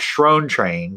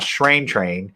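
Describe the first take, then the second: First: The first word has the vowel of 'stone'. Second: The first word has the vowel of 'shine'. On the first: The speaker calls it wrong. "I've been calling it Shrone Train because I that's the way it's spelled" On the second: The speaker calls it right. "So I'm going to say it correctly now"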